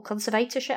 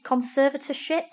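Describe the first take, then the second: First: Second attempt at "conservatorship", stressed on VAY; uncertain pronunciation. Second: First attempt at "conservatorship", stressed on SER; uncertain pronunciation. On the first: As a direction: try "conservatorship" as con-ser-VAY-tor-ship. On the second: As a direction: try "conservatorship" as con-SER-va-tor-ship. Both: Shown as a demonstration. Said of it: "I don't know how to pronounce it".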